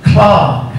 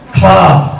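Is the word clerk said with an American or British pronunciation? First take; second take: British; British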